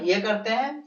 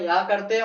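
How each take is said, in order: First: "ये" with a clear ay vowel; strong form of "a". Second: "या" with an ah vowel; weak form of "a". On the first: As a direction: say "ये", not "या". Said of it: "ये का उच्चारण ये करते हैं". (ज़ोर वाला रूप "ये", ए की ध्वनि) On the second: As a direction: say "या", not "ये". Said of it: "जब हम लोग भाषण देते हैं". (सामान्य रूप "या", आ की ध्वनि) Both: Shown as a demonstration.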